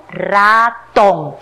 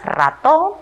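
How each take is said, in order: First: "ratón" lento, sílaba por sílaba: ra, tón; separado en sílabas. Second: Said in the usual way. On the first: Shown as a demonstration. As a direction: split "ratón" into two stretched, firm syllables. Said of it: "luego vamos a separar en sílabas". ("ratón" dicho despacio, separando ra y tón) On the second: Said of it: "Primero vamos a leer".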